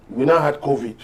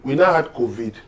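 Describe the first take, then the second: No difference in how they are said.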